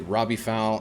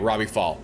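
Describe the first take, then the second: First: The surname has the vowel of 'owl'. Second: The surname has the vowel of 'all'. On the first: The speaker calls it wrong. "am I saying that correctly?" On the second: The speaker calls it right. "it sounds like fall"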